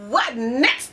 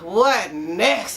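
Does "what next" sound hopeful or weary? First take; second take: hopeful; weary. First: It sounds upbeat and expectant. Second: It sounds tired and exasperated. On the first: Expecting something good to happen. The speaker calls it right. "say it with positive expectancy" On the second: Expecting something bad to happen. The speaker calls it wrong. "Lord, what next? I'm so tired"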